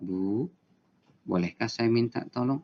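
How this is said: It is said in a calm, soothing tone.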